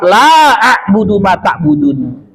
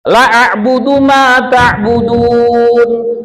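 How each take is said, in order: First: The vowel in 'la' is held long. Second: The vowel in 'la' is held short. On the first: I will not worship what you worship. The speaker calls it right. "Harusnya dibaca dua harokat" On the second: I will worship what you worship. The speaker calls it wrong. "la dua harokat kita baca satu harokat"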